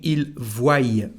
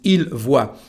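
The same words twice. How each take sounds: First: The verb ends with an added 'y' sound. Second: The verb ends without any added 'y' sound. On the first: The speaker calls it wrong. "people saying il voit for the last form, but of course it is not correct French" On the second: The speaker calls it right. "Correct French is il voit"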